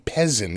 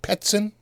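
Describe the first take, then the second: First: The middle consonant is a plain z sound. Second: The middle consonant is a ts sound. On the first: The speaker calls it wrong. "It wouldn't be Pezzin" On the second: The speaker calls it right. "It's pronounced like a P E T S I N"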